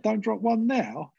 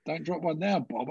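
First: "don't drop one now" said higher and slower, "now" stretched out; anxious inner voice. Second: Said in the usual way. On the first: Retold or imitated. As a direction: plead it to yourself, drawing out "now". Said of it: "I thought". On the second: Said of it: "just went".

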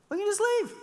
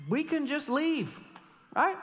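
First: High, louder singsong of the easy way out; mock breezy. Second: Mock breezy. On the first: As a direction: toss it off brightly like it's obvious. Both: Mocking easy way out.

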